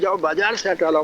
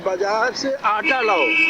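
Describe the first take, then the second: First: The stress is on the word बाजार. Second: The stress is on the word आटा.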